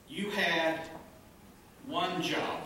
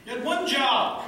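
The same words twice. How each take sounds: First: You had ONE job, ONE stretched and hit; stress on one job. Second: Much higher and louder, ONE hit hard; loud punchline. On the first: Shown as a demonstration. Pastor to congregation, ONE punched hard. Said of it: "You give somebody one job". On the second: Real, not acted. Pastor to congregation, loud and high punchline. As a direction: belt the punchline out. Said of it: "punchline to congregation".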